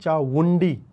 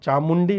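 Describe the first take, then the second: First: The middle consonant is a v sound. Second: The middle consonant is an m sound. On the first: The speaker calls it right. "ऐसे करके" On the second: The speaker calls it wrong. "नहीं"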